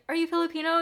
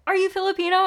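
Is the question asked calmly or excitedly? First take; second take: calmly; excitedly. First: It is asked in a calm, plain voice. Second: It is asked in a lively, energetic voice.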